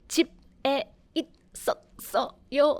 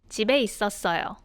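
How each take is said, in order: First: Each syllable is said separately. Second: The syllables flow smoothly together.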